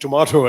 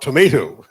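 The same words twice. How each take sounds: First: It is said with a non-American pronunciation. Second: It is said with an American pronunciation. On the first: This is the English the speaker was taught. "this is the English I was taught" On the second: This is the pronunciation the speaker refused to adopt. "I resolutely refused to acquire the American accent"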